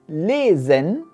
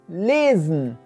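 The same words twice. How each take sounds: First: The e in the final syllable is clearly pronounced. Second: The e is dropped, ending straight on n. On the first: The speaker calls it wrong. "die Deutschen sagen nicht" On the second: The speaker calls it right. "Sie lassen dann einfach das E weg und sagen gleich das N"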